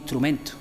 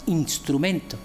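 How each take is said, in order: First: The inner s becomes a breathy h. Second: The inner s is a clear s. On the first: This is how locals say it. "se queda transformada en H aspirada" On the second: This is how other regions say it. "nosotros no decimos"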